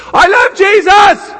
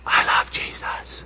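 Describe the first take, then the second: First: Put-on higher, louder child's exclamation. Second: Hushed whisper; quiet voice. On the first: Grandson [name] flipping back to his loud voice, high and louder. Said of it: "Okay, and you can turn it off now". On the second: Retold or imitated. Grandson [name] switching on his quiet voice, whispered. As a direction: whisper it like a little boy using his indoor voice. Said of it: "Turn on your quiet voice".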